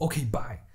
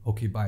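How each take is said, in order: First: It is said in an angry tone. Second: It is said in a calm tone.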